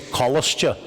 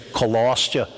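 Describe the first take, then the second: First: The stress is on the first syllable. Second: The stress is on the second-to-last syllable. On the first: This is the northern (Ulster) way of saying it. "Where we say colostya, in Ulster Irish, we only emphasise the first syllable" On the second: This is the southern way of saying it. "they say colostya; They emphasise the penultimate syllable"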